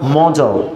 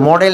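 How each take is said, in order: First: The last syllable sounds like 'ul'. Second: The last syllable sounds like 'el'. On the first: The speaker calls it right. "উচ্চারণটা কী হবে মজল" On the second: The speaker calls it wrong. "মডেল না"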